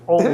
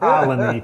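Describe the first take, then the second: First: The name sounds like the word 'only'. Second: The name sounds like 'Alany', with an 'ah' start. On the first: This is how a real local says it. The speaker calls it right. "It's only" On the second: This is how an outsider says it. The speaker calls it wrong. "It's not Alany"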